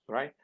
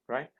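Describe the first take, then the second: The two takes are said the same way.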